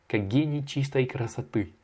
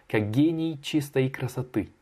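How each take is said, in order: Both takes have the same delivery.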